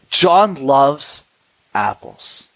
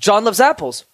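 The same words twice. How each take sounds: First: The phrase mixes quick and slow parts. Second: The phrase is said at one even pace. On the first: The speaker calls it right. "notice how I went quickly and slowly" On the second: The speaker calls it wrong. "they're both wrong"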